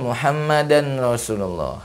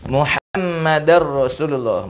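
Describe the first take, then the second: First: The final n is pronounced as n. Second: The final n becomes an r sound. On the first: The speaker calls it wrong. "bukan Muhammadan Rasulullah" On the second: The speaker calls it right. "membacanya Muhammadar Rasulullah"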